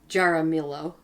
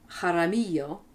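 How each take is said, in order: First: The name is said with an American pronunciation. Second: The name is said with the local pronunciation. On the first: "but perhaps it's Jaramillo in America" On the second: "is how they pronounce it here"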